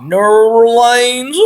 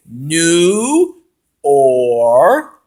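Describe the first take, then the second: First: "New Orleans" smeared into a long, loud "Nurr-leynz", rising; referee's botched pronunciation. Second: "New Orleans" in slow separate pieces, "New... Or... leens"; broken-down pronunciation. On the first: Retold or imitated. Fan imitating the referee's bad accent, "New Orleans" stretched and garbled upward. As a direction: butcher "New Orleans", slow with a climbing end. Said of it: "I swear that's how he talked".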